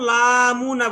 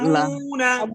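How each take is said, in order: First: The first vowel is drawn out long. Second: The first vowel is said short and quick. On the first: The speaker calls it wrong. "কেন লামুনা বলতেছেন? লা তো তাড়াতাড়ি" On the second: The speaker calls it right. "হরকতের উচ্চারণ তাড়াতাড়ি করতে হয়"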